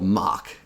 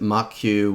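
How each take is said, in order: First: The name ends in a plain k sound. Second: The name ends in an added 'kyoo' sound. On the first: The speaker calls it right. "I use a library called mock" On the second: The speaker calls it wrong. "Some people pronounce it mockq, which I'll be honest, I don't think is correct"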